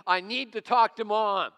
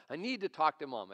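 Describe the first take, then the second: First: Loud, high imitation of an insistent child; very upset daughter. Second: Mildly upset, imitated child's plea; upset daughter. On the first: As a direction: belt out an exasperated child's demand. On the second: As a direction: lightly act an upset daughter insisting. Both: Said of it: "she's really getting upset".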